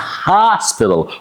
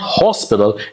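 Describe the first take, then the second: First: The first vowel is said with the mouth wide open. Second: The first vowel is said with little mouth opening. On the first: The speaker calls it right. "Open your mouth as much as you can" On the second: The speaker calls it wrong. "it's not hospital"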